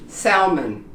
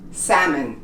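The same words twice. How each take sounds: First: The L is clearly pronounced. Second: The L is not pronounced. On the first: The speaker calls it wrong. "we think it was pronounced salmon. It's not" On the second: The speaker calls it right. "It's pronounced salmon in English"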